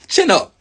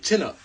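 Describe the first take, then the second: First: "Chin up" called out much higher, with "Chin" hit hard; urging chin up. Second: Quiet chin up. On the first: Urging his listeners to hold their heads high, he calls out. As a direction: bark "Chin up" as a rallying cry. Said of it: "Keep your chin up". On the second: Reminding himself after the call, he speaks quietly. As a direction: let "Chin up" drop to a quiet aside. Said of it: "Looking down is dead". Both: Shown as a demonstration.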